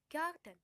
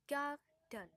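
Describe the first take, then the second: First: Said in the usual way. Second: "garden" broken in two, gar - den; split into two syllables. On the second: Shown as a demonstration. Teacher showing two syllables to learners, "garden" split as gar - den. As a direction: say "garden" syllable by syllable with a small gap. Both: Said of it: "And two syllable".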